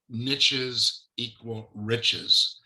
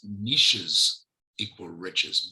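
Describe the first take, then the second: First: Niches rhymes with riches, in an American way. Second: Niches does not rhyme with riches, in a Canadian way. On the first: "they have a saying in the States" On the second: "it doesn't quite come out the same in, in Canadian English"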